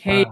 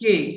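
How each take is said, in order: First: A breathy k gliding into an ei vowel. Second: A plain k with a short e vowel. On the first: The speaker calls it right. "কিন্তু উচ্চারণটা কি হবে? খেই" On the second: The speaker calls it wrong. "আমরা বলি"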